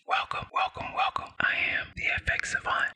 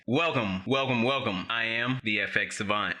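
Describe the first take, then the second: First: It is spoken in a whisper. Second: It is spoken in a normal voice.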